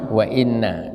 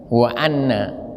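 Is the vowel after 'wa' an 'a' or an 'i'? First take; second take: i; a. First: The second word begins with an 'i' vowel. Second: The second word begins with an 'a' vowel. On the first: It starts a new sentence. "dibaca dengan kasro" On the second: It links this clause to the one before. "bil fathi dibaca fathah"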